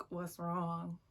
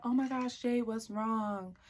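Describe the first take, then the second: First: Understated, irritated retort; pissed-off echo. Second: Higher, drawn-out mock concern; exaggerated sympathy, stretched at the end; imitating concerned friend. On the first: Retold or imitated. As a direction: throw the question back, annoyed. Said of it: "I'm just clearly pissed". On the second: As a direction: play the oblivious friend fussing. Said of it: "And so she's like".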